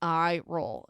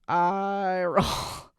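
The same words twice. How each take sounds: First: Said in the usual way. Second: Long, drawn-out groan of "I roll"; stretched-out, exasperated aside; exasperated eye roll. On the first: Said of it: "If you're not watching the video". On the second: Real, not acted. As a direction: drag it out slowly, audibly fed up. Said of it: "If you're not watching the video, you can, like, totally".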